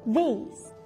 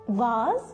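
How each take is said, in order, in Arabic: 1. تُنطق بلكنة أمريكية. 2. تُنطق بلكنة بريطانية. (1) "اما النطق ده American" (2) "النطق ده British"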